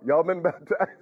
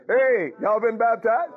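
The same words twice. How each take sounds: First: Asked through a laugh; laughing question. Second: Higher, louder, slow demand; loud slow call-out. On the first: Preacher teasing the congregation, laughing mid-question. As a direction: let the laugh break the question. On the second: Preacher challenging the congregation, loud and slow. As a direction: call it out to the whole room. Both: Real, not acted. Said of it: "this is why I talk this way".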